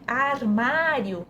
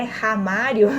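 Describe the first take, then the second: First: "armário" with the vowel before the r; word as written. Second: "ramário" with the r moved to the front; swapped syllable. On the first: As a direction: say "armário" starting on an open ar. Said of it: "as crianças confundem". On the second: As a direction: misread it as "ramário", starting on an aspirated r. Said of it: "não é ramário". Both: Shown as a demonstration.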